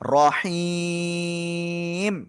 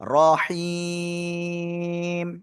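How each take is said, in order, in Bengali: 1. শব্দটি একটি দীর্ঘ স্বরের পরে m দিয়ে শেষ হয়। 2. শব্দটি একটি দীর্ঘ স্বরের পরে m দিয়ে শেষ হয়।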